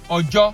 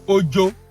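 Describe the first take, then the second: First: Its tones give the word meaning 'day'. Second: Its tones give the word meaning 'fear'. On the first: "O J O can be day" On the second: "O J O can be fear"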